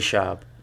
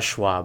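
First: The name has no w sound after sh. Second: The name has a w sound after sh. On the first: The speaker calls it right. "please say Schaub" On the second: The speaker calls it wrong. "it's not Schwab, bro. Okay, where's the W?"

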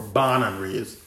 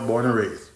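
First: It is said in a Crucian accent. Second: It is said in a standard accent.

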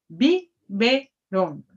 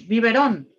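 First: It is said slowly, syllable by syllable. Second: It is said quickly as one word.

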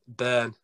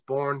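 First: The name is said with an English accent. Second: The name is said with an Irish accent. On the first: "I have to put on my English accent and say Byrne" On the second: "the way I say it is Bourne, because I'm Irish"

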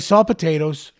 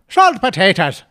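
First: It is said in his normal accent. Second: It is said in an Irish accent.

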